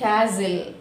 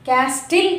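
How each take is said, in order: First: No t sound is heard in the middle. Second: A clear t sound is heard in the middle. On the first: The speaker calls it right. "Should not pronounce T here" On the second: The speaker calls it wrong. "Castle కాదండి"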